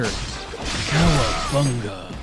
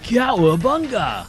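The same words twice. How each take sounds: First: It is said calmly in an old master's voice. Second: It is said in a laid-back surfer accent. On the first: "calmly as Splinter" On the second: "Like with a with a surfer accent"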